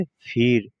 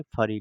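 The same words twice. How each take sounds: First: फिर with an 'i' right after फ; correct pronunciation. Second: फरी with a short 'a' after फ; misread pronunciation. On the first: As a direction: say फिर as one syllable, 'phir'. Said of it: "इसे क्या पढ़ेंगे?". (फिर, सही उच्चारण में 'फ' पर छोटी इ) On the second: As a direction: say फरी, 'pha-ree', as a learner's misreading. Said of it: "फिर फरी नहीं पढ़ेंगे". (फरी, गलत उच्चारण में 'फ' पर अ) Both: Shown as a demonstration.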